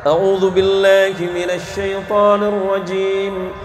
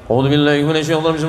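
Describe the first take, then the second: First: It is recited slowly and carefully. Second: It is recited extremely fast. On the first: "Seperti apa tartil?" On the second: "yang kecepatannya tiga ratus enam puluh kilometer per jam"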